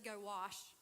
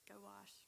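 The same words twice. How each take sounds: First: Said in the usual way. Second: Much softer, almost under the breath; soft repeat. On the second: Shown as a demonstration. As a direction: drop it to a quiet, pointed aside. Preacher repeats the command softly.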